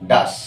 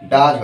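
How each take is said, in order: First: The word ends with a hissing s sound. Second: The word ends with a buzzing z sound. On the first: The speaker calls it wrong. "হচ্ছে না ডাস" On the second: The speaker calls it right. "ডাজ হচ্ছে"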